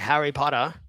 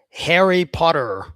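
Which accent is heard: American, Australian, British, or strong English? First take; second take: Australian; American. First: It is spoken in an Australian accent. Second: It is spoken in an American accent. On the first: "an Australian guy would say" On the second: "Very American"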